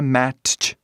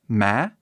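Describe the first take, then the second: First: A separate t sound is heard before ch. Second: No separate t sound is heard before ch. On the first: The speaker calls it wrong. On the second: The speaker calls it right.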